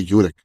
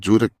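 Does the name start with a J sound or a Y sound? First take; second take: Y sound; J sound. First: The name starts with a Y sound. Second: The name starts with a J sound. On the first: The speaker calls it right. "λέγεται Γιούρεκ" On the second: The speaker calls it wrong. "γιατί αν λέγεται Τζούρεκ"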